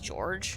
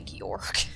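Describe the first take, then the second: First: The name ends with a soft j sound. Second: The name ends with a hard g sound. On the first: "most people probably pronounce that like George without the E just the same as George" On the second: "but I always want to say Georg"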